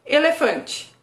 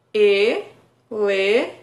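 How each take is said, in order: First: Said in the usual way. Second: "elefante" split into e-le-fan-te, very slow, rising at the end; syllable by syllable. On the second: Shown as a demonstration. Therapist counting syllables aloud for a child, very slow. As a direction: tap out each syllable of "elefante". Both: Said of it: "também quatro vezes".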